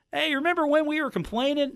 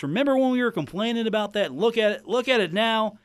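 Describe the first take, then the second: First: Put-on high, creaky old man; cranky old-timer reminiscing. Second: Put-on raised cranky old-man tone. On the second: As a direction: play a grumpy old-timer. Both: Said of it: "me in my old man voice".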